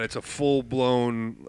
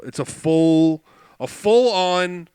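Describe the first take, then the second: First: Said in the usual way. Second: "full" punched louder and drawn out; stress on full. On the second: Shown as a demonstration. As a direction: lean hard on "full", slowly. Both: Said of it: "girl scream is the best way I could describe it".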